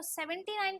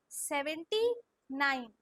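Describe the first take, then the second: First: Said in the usual way. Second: seventy drawn out, then falling nine; very slow dictation. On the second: Shown as a demonstration. Teacher tells pupils to say it slowly, drawn-out model. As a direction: stretch seventy, pause before nine. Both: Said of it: "slow slow बोलो".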